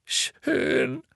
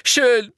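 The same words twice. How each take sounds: First: Sobbing. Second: Very high and loud "Schön."; defiant. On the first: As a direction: give in through sobs. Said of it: "schluchzte erneut". (leise schluchzendes „Schön“) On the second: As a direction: snap back in spite. (trotzig lautes „Schön.“) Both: A narrator's reading.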